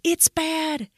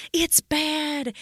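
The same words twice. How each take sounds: The two takes are said the same way.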